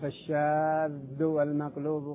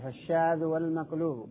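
First: The dh sound is doubled and held longer. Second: The dh sound is single and said quickly. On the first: The speaker calls it wrong. "خطأ عند القراءة" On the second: The speaker calls it right. "الذال غير مشددة بالتخفيف"

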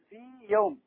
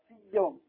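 First: The first ya is lengthened and kept separate. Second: The first ya merges into the next ya. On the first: The speaker calls it right. "تمكين مده حركتين من غير إدغام" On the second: The speaker calls it wrong. "أدغمت الياء المادية خطأ"

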